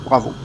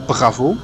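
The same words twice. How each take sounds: First: The R is light and soft. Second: The R is strongly forced and exaggerated. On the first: The speaker calls it right. "Just a soft R" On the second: The speaker calls it wrong. "I'm exaggerating it"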